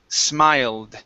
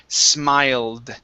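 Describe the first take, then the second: No difference in how they are said.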